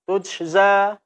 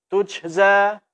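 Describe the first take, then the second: First: The jim is released loosely, sounding like sh. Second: The jim is released loosely, sounding like sh.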